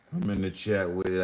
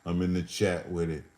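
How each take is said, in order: First: Faster second take; quicker repeat. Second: Said in the usual way. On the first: Shown as a demonstration. Repeating the line to the chat, quicker. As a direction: rattle it off quicker.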